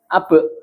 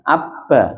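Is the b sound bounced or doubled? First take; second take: bounced; doubled. First: The b is released quickly with a bounce. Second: The b is held and sounds doubled. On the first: "Mboten ditahan nek qol-qolah itu" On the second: "Nek nek ditahan mengke dadi ada wonten sada yang tasdite"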